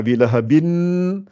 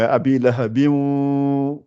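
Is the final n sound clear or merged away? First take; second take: clear; merged. First: The word ends with a clear n sound. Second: The n sound disappears into a nasal sound. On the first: The speaker calls it wrong. "Je ne dis pas abi lahabin" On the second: The speaker calls it right. "Le noun, il disparaît"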